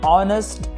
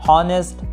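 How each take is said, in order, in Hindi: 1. यह शब्द स्वर ध्वनि से शुरू होता है। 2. यह शब्द 'h' ध्वनि से शुरू होता है। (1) "सही प्रोनाउंसिएशन होगी" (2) "पढ़ने की गलती मत कीजिएगा"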